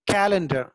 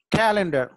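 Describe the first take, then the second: First: Whispered model word. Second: calendar said aloud, the first syllable stressed; voiced stress demo. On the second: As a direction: repeat calendar clearly for students, beat on the start. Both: Shown as a demonstration. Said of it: "సి దగ్గర stress mark వచ్చేస్తుంది".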